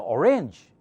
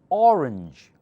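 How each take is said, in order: First: The stress is on the second syllable. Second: The stress is on the first syllable. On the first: The speaker calls it wrong. "most people will think you said arrange" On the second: The speaker calls it right. "O part is louder"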